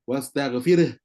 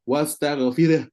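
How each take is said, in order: No difference in how they are said.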